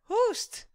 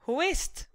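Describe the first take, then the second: First: The phrase is squeezed even shorter, nearly one syllable. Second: The phrase is quick, with het reduced to t. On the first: "or even shorter" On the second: "it might sound like this"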